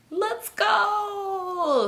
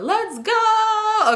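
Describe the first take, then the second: First: High, drawn-out whine, softer than the shout; crying kid. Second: High, long-held rapper holler. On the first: Retold or imitated. Crying kid begging to leave, high drawn-out wail. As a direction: wail it long and high like an upset child. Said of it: "The kid's still crying". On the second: Acted. Mimicking a rapper for laughs, high drawn-out holler. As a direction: stretch GO out high and full-voiced. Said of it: "Sound like [name]".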